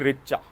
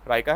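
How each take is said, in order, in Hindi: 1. यह नाम "Richa" बोला जाता है। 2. यह नाम "Raika" बोला जाता है। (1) "इंडियन प्रोनाउंसिएशन भाई रिचा" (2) "सही प्रोनाउंसिएशन राइका है"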